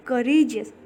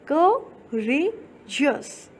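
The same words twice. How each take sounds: First: Said in the usual way. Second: courageous very slowly split as क, रे, Jesus; syllable by syllable. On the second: Shown as a demonstration. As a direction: stretch courageous out with a pause after each syllable. (Courageous को बहुत धीरे, हिस्सों में रुक-रुक कर) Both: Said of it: "आप एक बार बोल करके देखिए".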